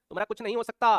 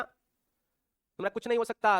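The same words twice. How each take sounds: First: Said in the usual way. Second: नहीं drawn out long and falling, whole line slow; slow mock despair, stretching नहीं; slow teasing repeat. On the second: Shown as a demonstration. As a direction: drag out every word, leaning on नहीं.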